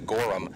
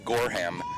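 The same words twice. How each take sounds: First: The H sound in the middle is dropped. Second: The H sound in the middle is clearly heard. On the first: This is how the written sheet gave it. "given to us phonetically as Gorham" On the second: This is how a team member said it. "the H is emphasized"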